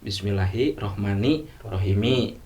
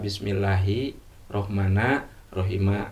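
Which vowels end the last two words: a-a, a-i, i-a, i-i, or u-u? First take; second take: i-i; a-a. First: Both final words end in an i vowel. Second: Both final words end in an a vowel. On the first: "bisa kasrah dua-duanya" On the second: "Bisa patah dua-duanya"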